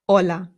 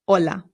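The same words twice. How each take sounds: First: The word begins directly with the vowel. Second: The same.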